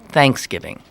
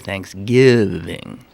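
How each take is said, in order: First: The stress is on the first syllable. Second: The stress is on the second syllable. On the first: This is how people around Pittsburgh say it. "more of a first syllable accent" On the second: This is how the speaker personally says it. "where I would accent the second"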